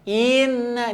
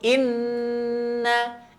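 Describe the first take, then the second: First: The first vowel is drawn out long. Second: The first vowel is short and direct. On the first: The speaker calls it wrong. "Jangan sampai dipanjangkan i-nya. ... Ini salah" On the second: The speaker calls it right. "Tapi langsung"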